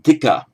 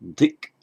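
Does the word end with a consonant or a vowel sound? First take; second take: vowel; consonant. First: The word ends with a short a vowel. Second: The word ends sharply on the k consonant. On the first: The speaker calls it wrong. "It would have been pronounced as dika, but it's not" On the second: The speaker calls it right. "It's just dik with the virama sign"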